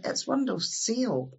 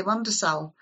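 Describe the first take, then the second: First: "It's windowsill" slow, in a mock English accent. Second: "Windowsill" with "windae-sill" vowels, falling; Ulster Scots windowsill. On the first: Visitor from England corrects him, slow mock English accent. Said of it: "they'll say". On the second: Retold or imitated. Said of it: "And I say".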